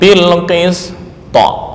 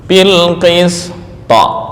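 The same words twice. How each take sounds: The two takes are said the same way.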